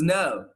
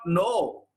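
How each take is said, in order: First: The vowel glides from a neutral sound toward U. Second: The vowel is a single pure long O. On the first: The speaker calls it right. "This is no" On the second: The speaker calls it wrong. "This is not no"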